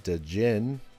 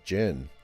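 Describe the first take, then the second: First: The word starts with a D sound. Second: The word starts without a D sound. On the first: The speaker calls it wrong. "I'm probably not saying that right" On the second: The speaker calls it right. "maybe a silent D"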